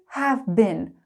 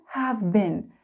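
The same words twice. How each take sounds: No difference in how they are said.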